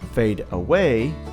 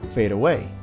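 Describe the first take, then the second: First: The two words are said separately. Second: The two words are joined into one.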